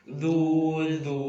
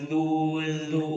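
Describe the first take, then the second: No difference in how they are said.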